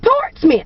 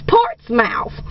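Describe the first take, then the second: First: The last syllable sounds like smith, reduced. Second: The last syllable sounds like the word mouth. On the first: It is said the way the locals say it. The speaker calls it right. "the people in Virginia pronounce it Portsmouth" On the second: It is read the way it is spelled. The speaker calls it wrong. "Looks like Portsmouth to me"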